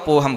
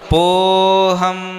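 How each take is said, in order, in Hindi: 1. स्वर को बिल्कुल नहीं खींचा जाता है। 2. स्वर को बहुत देर तक खींचा जाता है। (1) "नहीं लिखा हो तो पोहम बोलेंगे सीधा" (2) "अगर दो बार लिखा होगा तो पोहम, ऐसा।"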